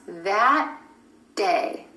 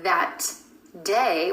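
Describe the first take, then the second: First: The final T of 'that' is held, unreleased. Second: The final T of 'that' is audibly released. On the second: "with a released T at the end of that"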